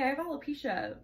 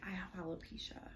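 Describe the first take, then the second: First: It is said in a light, offhand tone. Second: It is said in a grave, serious tone. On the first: The news sounds like no big deal. The speaker calls it right. "oh yeah, by the way" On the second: The news sounds like something alarming. The speaker calls it wrong. "if you deliver it in a serious tone"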